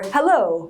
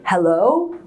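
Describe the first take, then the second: First: The pitch falls on the word. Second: The pitch rises on the word. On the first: "and it goes down" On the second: "it goes up"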